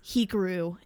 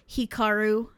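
First: The name is said with Americanized sounds. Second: The name is said with Japanese-like sounds. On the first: The speaker calls it wrong. "as Hikaru every time, and I hate myself for it" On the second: The speaker calls it right. "I said Hikaru as"

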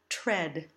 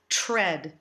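First: A clear t is followed by a soft r. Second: The tr sounds like a ch sound. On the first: The speaker calls it right. "we use a phonetic T and the bird R sound" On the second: The speaker calls it wrong. "Nor do we want to do the colloquial CH sound"

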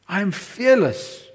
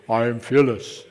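First: It is said in the speaker's normal voice. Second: It is said in a put-on deep voice.

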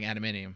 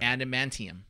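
First: The N and T blur into a D sound. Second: The T sound after the N is clearly pronounced. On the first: The speaker calls it wrong. "When I say it quickly, it sounds like" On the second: The speaker calls it right. "that sounds good"

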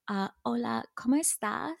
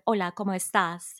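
First: The voice sounds hesitant, small and apologetic. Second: The voice sounds full, lively and confident. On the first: The speaker doubts they could say it well. The speaker calls it wrong. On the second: The speaker is sure of themselves. The speaker calls it right.

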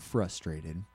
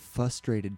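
First: The r after the first f is pronounced. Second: The r after the first f is dropped. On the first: The speaker calls it right. "I didn't pronounce it frustrated" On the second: The speaker calls it wrong. "I completely missed the first R"

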